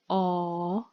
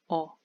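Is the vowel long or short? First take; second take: long; short. First: The vowel is held long. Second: The vowel is cut short. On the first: It is the name of the letter. "I pronounced it in a long way" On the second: It is the sound itself. "the sound itself is a short sound"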